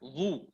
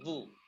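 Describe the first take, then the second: First: The syllable is heavy, with lips pushed forward. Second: The syllable is plain, with lips not pushed out. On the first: The speaker calls it wrong. "Jangan zu. Kalau monyong itu berarti to yang dikasih titik" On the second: The speaker calls it right. "makhrajnya ujung lidah menyentuh ujung gigi seri atas"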